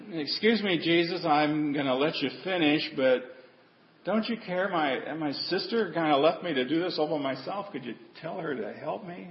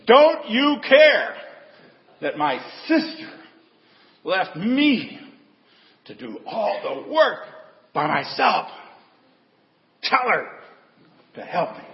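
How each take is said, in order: First: Soft, politely restrained plea; polite quiet request. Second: Exasperated outburst. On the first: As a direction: ask sweetly and quietly, holding back. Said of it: "I don't think that's the way she said it". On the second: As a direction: burst out of the kitchen fed up. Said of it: "just come out of the kitchen". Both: Retold or imitated.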